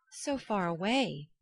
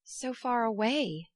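First: Slow, understated "So far away," with a falling close; tone of despair. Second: Slow, falling "So far away!" in mild despair. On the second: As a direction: let "So far away!" sink slowly, dismayed. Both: A narrator's reading. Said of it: "in a tone of despair".

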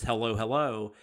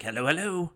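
First: Said in the usual way. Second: Imitating a henchman's Australian "Hello, hello"; light Australian lilt on "Hello, hello"; Australian accent. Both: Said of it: "but he does it like he's like".

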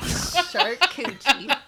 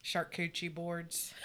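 First: Laughing mock Okie. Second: Put-on Okie accent. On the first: Real, not acted. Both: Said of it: "Said that in my best Okie accent".

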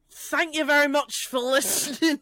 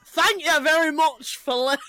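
First: Put-on a lighter, accidental Scottish accent. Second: Failed impression in a Scottish accent. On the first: Told to drop the accent, still lightly Scottish. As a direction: aim for own accent but still sound faintly Scottish. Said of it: "I don't know why you're Scottish". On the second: Retrying the sign-off before amused co-hosts, Scottish-sounding accent. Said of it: "Maybe don't do the accent".

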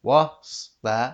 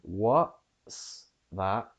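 First: "what's" loud, sliding quickly through the S; Cockney try that hurries the S of "what's"; rushed S. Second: "what's" broken apart, held stop then S; stop before S. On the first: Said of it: "you're rushing through the S". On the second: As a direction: exaggerate the pause inside "what's". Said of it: "stop before the S". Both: Shown as a demonstration.

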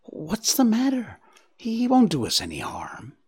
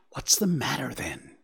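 First: High start, then a frightened whisper; trembling voice. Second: Hushed, anxious and softer; anxious whisper. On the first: Bambi calming Faline, frightened and trembling. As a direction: try to sound brave while scared. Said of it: "there was a tremble in his voice". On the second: Bambi hushed and anxious at a looming stag. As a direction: ask it under your breath, worried. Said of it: "he whispered anxiously". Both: A narrator's reading.

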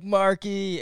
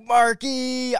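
First: Milder retold happy name call; a touch of mock excitement on the name; excited greeting. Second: High, loud mock-thrilled name call; hammed-up happy shout, pitched way up; excited greeting. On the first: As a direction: imitate a pleased hello, lightly. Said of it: "But you were like". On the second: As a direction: imitate someone thrilled to hear from a friend. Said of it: "the way you responded".

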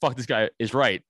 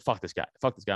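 First: Firmer retort in usual pitch; emphatic agreement. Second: Lower-pitched, offhand imitation of buddy; dismissive urging. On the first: Retold or imitated. Riled man correcting his buddy, retold emphatic agreement. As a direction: throw the phrase back with more force. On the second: Buddy talking to his riled friend, imitated low dismissal. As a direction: drop the pitch, brush the guy off. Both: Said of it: "not how you're saying it".

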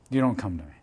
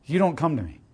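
First: Repeated softer and lower; quiet echo. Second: Said in the usual way. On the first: Shown as a demonstration. Preacher echoing the refrain to the congregation, softly. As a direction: let the repeat fall away quietly. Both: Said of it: "repeated line".

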